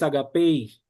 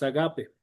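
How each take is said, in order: First: The word ends with an extra i sound. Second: The word ends plainly on the final vowel. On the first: The speaker calls it wrong. "No es agapei" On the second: The speaker calls it right. "La iota no se pronuncia, es agape"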